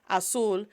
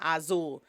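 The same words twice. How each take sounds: First: The middle consonant is a hissing s sound. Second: The middle consonant is a buzzing z sound. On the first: The speaker calls it right. "think of it as an S sounds" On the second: The speaker calls it wrong. "is not azul"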